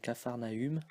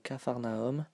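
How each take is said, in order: First: The ending uses the French u vowel. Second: The ending sounds like 'om', as in medium. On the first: The speaker calls it wrong. "it's not pronounced U. We don't say" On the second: The speaker calls it right. "we say ... like in medium"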